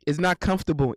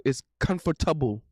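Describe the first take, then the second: First: "comfortable" said with a hard t, kum-fer-TAH-bul; "It's not comfortable" with a Caribbean lilt; Caribbean-style comfortable. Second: Said in the usual way. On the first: Shown as a demonstration. Streamer showing chat how Caribbeans say comfortable. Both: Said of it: "That's how we say it".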